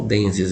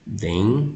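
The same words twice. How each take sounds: First: Said in the usual way. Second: "Densias" as den... si... as, long pauses between; split into syllables. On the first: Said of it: "Vou pegar só o dências". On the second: Shown as a demonstration. Teacher showing how some people divide the ending, split into syllables. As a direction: break "Densias" into three slow, separate syllables. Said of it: "Tem gente fazendo assim".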